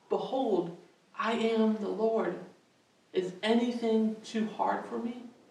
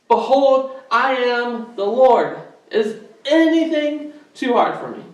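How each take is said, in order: First: It is said quietly. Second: It is said loudly.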